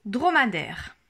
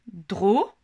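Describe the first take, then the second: First: Said in the usual way. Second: "Dromadaire" split into "dro-ma-daire", louder; syllables counted out. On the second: Shown as a demonstration. Teacher counts the syllables of "Dromadaire" for parents. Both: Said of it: "Il y a trois syllabes".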